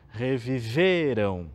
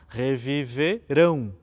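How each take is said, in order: First: The stress falls on the middle syllable. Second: The stress falls on the last syllable. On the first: They lived again in the past. The speaker calls it wrong. "E não acentuar o meio da palavra" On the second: They will live again in the future. The speaker calls it right. "a gente precisa acentuar a última sílaba, acentuar o final da palavra"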